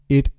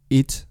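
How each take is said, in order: First: The word ends in a soft r-like tap. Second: The word ends in a hard t. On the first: "cambiarlas por R, como en cara" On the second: "las T's inglesas le estaban descolocando su voz"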